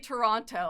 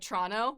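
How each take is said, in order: First: Toronto is pronounced the way outsiders say it. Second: Toronto is pronounced the way locals say it. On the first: Other people say it this way. The speaker calls it wrong. "I don't say" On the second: The speaker says it this way. The speaker calls it right. "I'm like"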